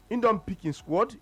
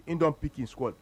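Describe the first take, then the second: First: Slower, higher, with "don" leaned on and a rising end; "don" pressed so the coach's choice sounds final; stress on don. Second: Said in the usual way. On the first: Real, not acted. Pundit defending the coach's pick, stressing "don".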